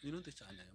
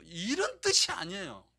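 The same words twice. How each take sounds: First: Lower, much softer echo; soft repeat. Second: Loud, firm no; emphatic denial. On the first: Pastor to church, soft quiet repeat. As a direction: repeat it quietly, almost to yourself. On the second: Pastor to church, loud firm denial. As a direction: declare it is not so, loudly. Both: Shown as a demonstration. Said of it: "먼저 이걸 아셔야 돼요".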